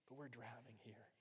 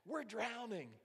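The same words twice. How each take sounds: First: Very soft, understated mock plea; hushed, polite plea. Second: High, loud panicked alarm; frantic cry. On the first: Disciples to sleeping Jesus about drowning, timid and hushed. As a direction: say it gingerly, as if not to wake him. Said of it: "I don't wanna wake you". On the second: Acted. Disciples screaming to Jesus that they drown, frantic. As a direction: cry out for rescue at once. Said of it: "shook him like crazy".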